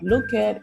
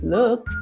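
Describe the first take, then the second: First: It ends with an extra 'it' syllable. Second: It ends with a short T sound. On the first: The speaker calls it wrong. "it's not look it" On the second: The speaker calls it right. "it's looked with a t sound at the back"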